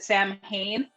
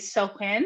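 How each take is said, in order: First: It is said the way English speakers usually say it. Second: It is said with its original Celtic pronunciation. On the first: The speaker calls it wrong. "Most people in English pronounce it" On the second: The speaker calls it right. "but it's actually"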